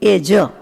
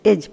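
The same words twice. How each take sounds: First: The final j sound is fully sounded. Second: The final j sound is cut short. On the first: The speaker calls it right. "ખાઈ ન જાય" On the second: The speaker calls it wrong. "જ મનમાં બોલી જાય એવું નહીં"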